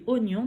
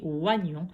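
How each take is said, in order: First: "oignon" said o-gnon, opening on a pure O; correct pronunciation. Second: "oignon" said as oua-gnon; spelling pronunciation. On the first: Teacher showing how it is said, "oignon" as o-gnon. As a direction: begin "oignon" with O, no wa sound. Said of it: "Ça se dit oignon". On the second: Teacher showing the tricky spelling, "oignon" as oua-gnon. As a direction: read the oi of "oignon" as wa. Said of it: "mais ça s'écrit oignon". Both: Shown as a demonstration.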